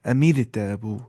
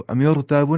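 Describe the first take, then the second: First: "अमीर ताबू" with a fine R after "mi"; Tajweed light ra in "अमीर ताबू"; light thin R. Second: "अमीर ताबू" with a thick, rounded R; the mistaken heavy R in "अमीर ताबू"; wrongly heavy R. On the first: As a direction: recite "अमीर ताबू" as amir-taaboo, R light. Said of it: "हल्की आवाज़ से पढ़ना है". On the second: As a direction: say "अमीर ताबू" like ami-or-taaboo. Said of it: "अमीर ताबू नहीं". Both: Shown as a demonstration.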